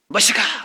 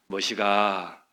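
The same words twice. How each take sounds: First: It is called out in an irritated, nagging tone. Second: It is called out in a warm, gentle tone.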